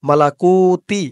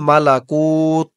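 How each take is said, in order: First: The word ends with an added 'i' vowel. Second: The word ends on a bare 't' consonant. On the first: The word is joined to what follows. The speaker calls it wrong. "এমন করে বলে থামবেন না।" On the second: The reader pauses at this word. The speaker calls it right. "তাই উচ্চারণ করেছি ওয়াল মালাকুত, কুত বলেছি।"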